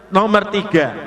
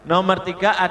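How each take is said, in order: The two takes are said the same way.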